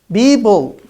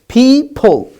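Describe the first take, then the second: First: The p sounds are said as b. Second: The p sounds are said as p. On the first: The speaker calls it wrong. "Because I pronounced P as B" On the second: The speaker calls it right. "It's people"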